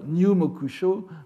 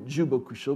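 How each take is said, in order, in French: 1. Le titre commence par un son 'nyu'. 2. Le titre commence par un son 'ju'. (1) "un moine bouddhique devrait lire Nyumokusho" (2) "c'est toujours lu Jubokusho pour montrer que nous sommes dans une pratique littéraire"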